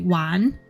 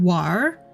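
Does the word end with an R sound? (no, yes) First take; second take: no; yes. First: The word ends without an R sound. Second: The word ends with an R sound. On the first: "which is actually technically wan" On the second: "there's usually an R sound at the end"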